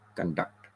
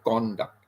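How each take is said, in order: First: The stress is on the second syllable. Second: The stress is on the first syllable. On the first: It is a verb meaning to carry out. "the con, C O N is soft. The D U C T is more" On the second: It is a noun meaning behavior. "we stress on the first syllable"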